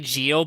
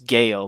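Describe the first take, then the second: First: The name is said with an English pronunciation. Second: The name is said with a Japanese pronunciation. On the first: The speaker calls it wrong. "I say Geo, but my wife corrects me" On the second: The speaker calls it right. "that's it's how you say it in Japanese"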